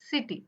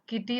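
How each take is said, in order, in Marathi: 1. शब्दाची सुरुवात s आवाजाने होते. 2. शब्दाची सुरुवात k आवाजाने होते. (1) "सिटी होतं" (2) "किटी नाही"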